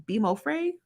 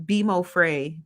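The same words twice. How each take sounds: First: Bimo Frey lifted higher into a question; "Bimo Frey" said tentatively, pitch climbing on Frey; unsure pronunciation check. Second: Said in the usual way. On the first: Real, not acted. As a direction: try out "Bimo Frey?", rising at the end. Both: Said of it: "I hope I'm saying that right".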